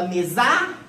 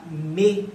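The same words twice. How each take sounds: First: Mesar said as me-ZÁ, final syllable raised; mis-stress mesar on the final A, questioning; stress on last syllable. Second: Mesa split as ME-za, weight on ME; stress on first syllable. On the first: Teacher testing the tonic syllable of mesa, mesar end-stressed. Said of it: "Qual que é a sílaba tônica de mesa?". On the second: Teacher testing the tonic syllable, mesa stressed on ME. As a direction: say mesa with a long ME and light za. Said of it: "É o me". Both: Shown as a demonstration.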